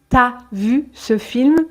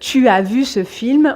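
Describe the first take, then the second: First: The vowel of tu is dropped entirely. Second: The vowel of tu is fully pronounced.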